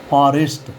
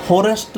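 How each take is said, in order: First: फॉरेस्ट with open "aa", phaarest; corrected pronunciation. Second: फॉरेस्ट with a round "o", phorest; wrong pronunciation. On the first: Teacher gives students the right form, corrected pronunciation. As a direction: open the first vowel of फॉरेस्ट to "phaa". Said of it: "इसको बोलेंगे F ओ R को". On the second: Teacher shows students what not to say, wrong pronunciation. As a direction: round the first vowel of फॉरेस्ट to "pho". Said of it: "फॉरेस्ट नहीं बोलेंगे". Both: Shown as a demonstration.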